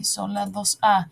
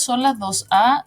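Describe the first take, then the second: First: Slow "son las dos A", falling on the A; answering. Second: "son las dos A" rising on the A; questioning. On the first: Teacher confirming that the letters match, answering. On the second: Teacher checking whether both letters match, questioning. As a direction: ask "son las dos A" with a lifted ending. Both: Shown as a demonstration.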